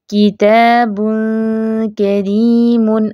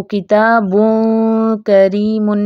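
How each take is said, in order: First: किताबुन करीमुन slow, ghunna thin and light; light ghunna ikhfa. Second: किताबुन करीमुन with a heavy thick ghunna, the wrong way. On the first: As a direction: lips stretched, light nasal in किताबुन. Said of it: "इख्फा मोटा नहीं होना चाहिए". (किताबुन करीमुन बारीक गुन्ना) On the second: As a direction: mouth too open, thick nasal in किताबुन. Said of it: "नहीं पढ़ेंगे". (किताबुन करीमुन मोटा गुन्ना, गलत) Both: Shown as a demonstration.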